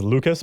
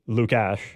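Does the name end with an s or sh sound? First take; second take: s; sh. First: The name ends with a plain s sound. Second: The name ends with an sh sound. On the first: "everyone else says Lucas" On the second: "makes it more of a sh sound"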